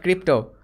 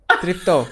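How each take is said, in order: First: "crypto" with a hard k sound at the start; wrong pronunciation. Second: "Tripto" starting with a t sound; correct pronunciation. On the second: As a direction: say "Tripto" with a clear t before the r. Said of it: "Not crypto". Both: Shown as a demonstration.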